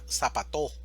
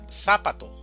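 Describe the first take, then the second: First: The stress is on the last syllable. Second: The stress is on the first syllable. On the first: "o si fuera en la última sería zapato" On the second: "Si fuera en la primera sílaba sería zapato"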